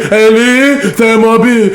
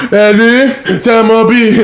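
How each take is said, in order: Both takes have the same delivery.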